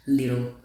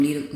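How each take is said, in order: First: Said in the usual way. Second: "Little" botched and cut short; fumbled word. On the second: Real, not acted. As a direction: stumble over "Little" and break off. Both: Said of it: "Can't pronounce the word little".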